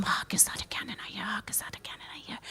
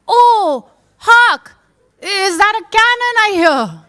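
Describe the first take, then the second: First: Rapid, barely audible whisper; quiet rehearsal. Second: High, loud theatrical proclamation; hammed-up delivery of a forgotten line; belated stage declamation. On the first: Acted. Actor practising while putting on his costume, whispering. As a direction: whisper the line over and over, quickly. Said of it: "He has to be quiet". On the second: Actor remembering his cue too late, declaiming loudly.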